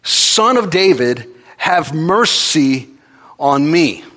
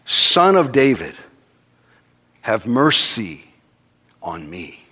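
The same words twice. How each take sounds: First: Loud, high, slow desperate cry; crying out louder. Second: Slow pleading call, somewhat raised; crying out. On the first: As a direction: stretch it out, begging louder. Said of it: "he cries out all the more". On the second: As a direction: call out for mercy slowly. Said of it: "He cries out". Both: Retold or imitated.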